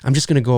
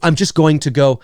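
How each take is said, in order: First: Going to is reduced to gonna. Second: Going to is fully enunciated. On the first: This is how people really talk. The speaker calls it right. "that's what we say. We say gonna" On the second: This is too proper for natural speech. The speaker calls it wrong. "we don't enunciate so so properly"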